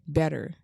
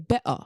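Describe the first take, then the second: First: It is said in an American accent. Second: It is said in a British accent. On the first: "We say better" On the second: "They say better"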